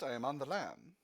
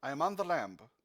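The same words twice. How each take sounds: First: "lam" said as plain lam, no B sound; lam without the B. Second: "lamb" said with a voiced B at the end. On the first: Acted. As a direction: keep the B silent in "lam". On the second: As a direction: sound the B in "lamb". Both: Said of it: "That's lamb without the B".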